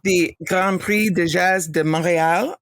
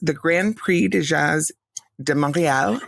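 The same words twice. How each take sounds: First: It is said with a French accent. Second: It is said with a plain English accent. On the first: The speaker calls it right. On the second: The speaker calls it wrong.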